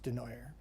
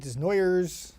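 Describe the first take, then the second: First: The S sounds in the name are silent. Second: The S sounds in the name are pronounced. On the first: The speaker calls it right. "You just don't say the S's" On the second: The speaker calls it wrong. "I answer to all of them"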